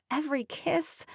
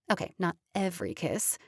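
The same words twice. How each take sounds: First: Kiss stressed, rising at the end. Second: Every stressed, corrective rise. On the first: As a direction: lean on kiss in every kiss. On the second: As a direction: correct yourself by hitting every in not every kiss. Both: A narrator's reading.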